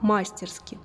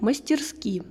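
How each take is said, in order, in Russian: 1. Ударение на первом слоге. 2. Ударение на последнем слоге.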